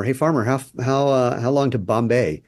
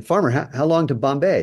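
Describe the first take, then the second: First: Mildly raised call across a field; a light mock shout asking the way; retold yell. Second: Higher, more insistent call; a traveller calling louder the second time; louder retold yell. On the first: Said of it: "yells to the farmer". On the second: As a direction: shout it again, now impatient. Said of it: "He yells again".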